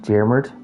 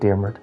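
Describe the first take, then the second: First: The name is said the widespread Irish way. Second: The name is said the local regional way. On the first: This is how most of the country says it. "in most places in Ireland, uh, uh, Daemert is pronounced Diarmid" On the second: This is how one local area says it. "in my part of Ireland we pronounce it as Diarmid"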